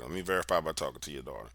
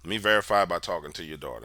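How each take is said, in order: First: Quieter repeated plea. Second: Begging. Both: Retold or imitated. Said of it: "I'm begging to talk to the daughter".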